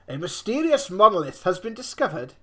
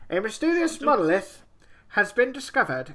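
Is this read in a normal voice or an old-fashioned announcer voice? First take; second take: normal; announcer. First: It is read in the speaker's normal voice. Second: It is read in an old-fashioned announcer voice.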